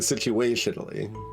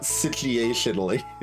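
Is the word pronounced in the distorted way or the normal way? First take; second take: normal; distorted. First: The word is pronounced in the normal way. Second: The word is pronounced in a distorted way. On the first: The speaker calls it right. "I'm still going to say situationally" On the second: The speaker calls it wrong. "not situationally"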